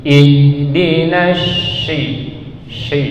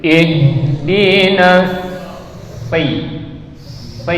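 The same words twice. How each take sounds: First: Slow "Ihdinas shi" with a hushing sh in place of sad; mistaken shin reading. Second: Slow "Ihdinas si" with a heavy s, tongue tip forward; correct sad reading. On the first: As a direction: chant "Ihdinas shi", sliding wrongly into a sh sound. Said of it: "Ada yang baca seperti ini". ("Ihdinas shi" dibaca keliru dengan bunyi syin, panjang) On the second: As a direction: chant "Ihdinas si" on a thick hissed s, never sh. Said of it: "Kita bacanya jadinya seperti ini". ("Ihdinas si" dilantunkan panjang dengan bunyi sod di ujung lidah) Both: Shown as a demonstration.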